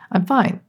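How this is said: The words sound sincere and untroubled. The speaker really is fine. "The text is I'm fine. The subtext is I'm fine"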